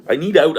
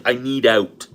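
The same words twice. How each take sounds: First: I need out louder and higher, leaning on need; pleading repeat. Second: Said in the usual way. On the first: Retold or imitated. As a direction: push harder on need the second time. Retelling his desperate plea.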